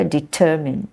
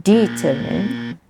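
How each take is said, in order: First: "Determine" with weight on TER; stress second syllable. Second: "determine" slowly as DEE-ter-mine; wrong first-syllable stress. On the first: Teacher repeats the right form, stress second syllable. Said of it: "stress is on the second syllable". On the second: Teacher shows the form to avoid, wrong first-syllable stress. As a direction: lean hard on the DE of "determine". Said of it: "Not determine". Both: Shown as a demonstration.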